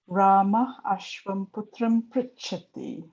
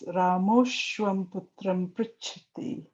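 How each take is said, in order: First: The first two words are said separately. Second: The first two words merge into one word.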